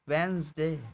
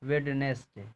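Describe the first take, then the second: First: It is said with two syllables, letters dropped. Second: It is said with all three syllables sounded. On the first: The speaker calls it right. "ये वेंसडे है" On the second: The speaker calls it wrong. "क्या पढ़ते हैं, वेडनेसडे, यही ना"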